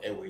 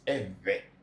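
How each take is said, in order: First: The middle consonant is a w sound. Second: The middle consonant is a v-like sound. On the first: The speaker calls it wrong. "It is not ewe" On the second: The speaker calls it right. "it's eve"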